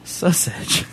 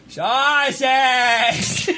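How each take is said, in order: First: Said in the usual way. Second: Put-on high, drawn-out old lady cry. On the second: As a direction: mimic an old lady at the deli counter. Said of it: "she points and she goes".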